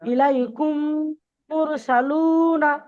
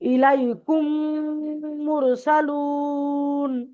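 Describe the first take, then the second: First: The last word ends on a short vowel. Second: The last word ends on a stopped consonant. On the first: This is the form read as written without stopping. "যেমন আছে তেমনই পড়েন" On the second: This is the form used when stopping at a verse end. "তখন এই জবরটা কেটে এখানে সাকিন আসবে"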